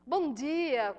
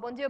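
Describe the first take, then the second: First: It is said with emphasis and energy. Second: It is said flatly, without energy. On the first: The greeting reaches out warmly to people. The speaker calls it right. "Você fala com ênfase, com energia" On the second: The greeting makes no impression on anyone. The speaker calls it wrong. "melhor que nem dissesse nada"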